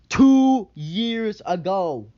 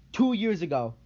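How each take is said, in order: First: TWO years ago, each word drawn out slowly and louder; slow, loud emphasis. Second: Said in the usual way. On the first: Real, not acted. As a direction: drag out "two years ago" to hammer the point home. Repeating the date for emphasis.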